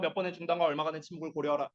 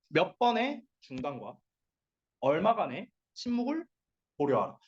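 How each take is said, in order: First: It is read quickly without pauses between words. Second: It is read slowly with pauses between words. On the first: The speaker calls it wrong. "이렇게 하지 말고" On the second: The speaker calls it right. "약간 이렇게 띄엄띄엄띄엄 말하라고 간격을 두라고"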